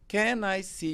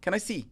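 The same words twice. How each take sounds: First: Each word is said separately, one by one. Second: The words run together into one sound. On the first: "O brasileiro ele fala palavra por palavra" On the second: "o americano faz o que ele linka"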